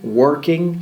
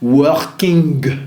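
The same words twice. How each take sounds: First: The ending is a pure nasal with no hard g. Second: The ending has a hard g or k after the nasal. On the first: The speaker calls it right. "c'est un son nasal unique" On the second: The speaker calls it wrong. "comme un N K ou N G dur, ... C'est pas correct"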